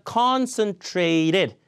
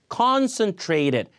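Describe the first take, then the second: The two takes are said the same way.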